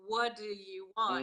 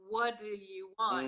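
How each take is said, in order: First: The words are reduced and run together. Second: The words are reduced and run together.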